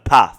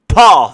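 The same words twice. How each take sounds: First: The vowel is short, northern English style. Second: The vowel is long, southern English style.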